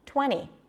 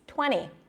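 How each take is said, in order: First: The T after the N is dropped. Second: The same.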